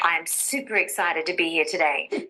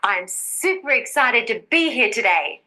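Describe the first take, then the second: First: It is spoken at a low pitch. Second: It is spoken at a high pitch. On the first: The speaker calls it wrong. "listen to this sentence in a low pitch" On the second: The speaker calls it right. "Let's try a higher pitch"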